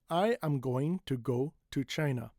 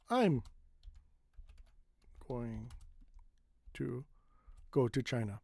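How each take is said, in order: First: Every word is pronounced fully and separately. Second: I am is contracted to I'm. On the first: The speaker calls it wrong. "it is over enunciated" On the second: The speaker calls it right. "that's a more normal way of saying it"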